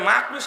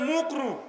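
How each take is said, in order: First: The word is said in a clear, careful way. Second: The word is said in a mumbled, distorted way. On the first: The speaker calls it right. "মানে" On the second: The speaker calls it wrong. "শব্দ ঠিকভাবে বলে না"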